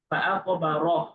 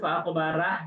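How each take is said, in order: First: The final 'ra' is heavy with rounded lips. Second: The final 'ra' is light with open lips. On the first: The speaker calls it right. "যেমন রকুর" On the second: The speaker calls it wrong. "ভুলেও ফাআকবা রাহ বলা যাবে না"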